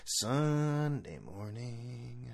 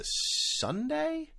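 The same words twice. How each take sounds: First: Slow confirmation. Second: Unsure question. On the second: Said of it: "when am I going?". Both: Real, not acted.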